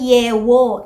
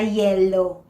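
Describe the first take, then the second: First: The middle consonant is a W sound. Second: The middle consonant is an L sound. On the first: "when they change a sound to a glide" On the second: "imbis na"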